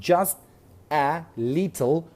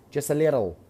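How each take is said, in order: First: Each word is said separately, without linking. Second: The words run together, linked into one.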